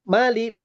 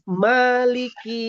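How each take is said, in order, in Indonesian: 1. Vokal setelah m dibaca pendek. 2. Vokal setelah m dibaca panjang. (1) "ini fathah biasa saja" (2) "fathahnya itu ada mat tobi'i. Dibaca dua harakat"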